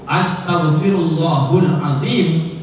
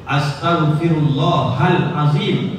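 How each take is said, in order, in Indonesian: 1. Vokal sebelum azim adalah u. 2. Vokal sebelum azim adalah a. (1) "itu berubah arti dan makna" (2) "itu betul"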